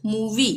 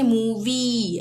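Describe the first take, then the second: First: मूवी with a short, quick final ee. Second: मूवी with the final ee drawn out; wrong long ee. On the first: Teacher showing learners how to read मूवी, short final i. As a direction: say मूवी without stretching the last vowel. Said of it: "हम पढ़ेंगे मूवी". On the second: Teacher showing learners how not to read मूवी, final ee stretched. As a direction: stretch the last vowel of मूवी into a long eee. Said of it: "ये नहीं पढ़ेंगे मूवी". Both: Shown as a demonstration.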